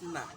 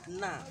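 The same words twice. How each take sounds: First: The word is said without stress. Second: The word is said with stress. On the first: The speaker calls it wrong. "So it's not na" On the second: The speaker calls it right. "So there is a stress"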